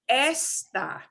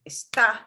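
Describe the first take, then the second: First: The stress is on the first syllable. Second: The stress is on the last syllable. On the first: It means this thing. "The word esta means this" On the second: It is the verb. "We punch the a at the end"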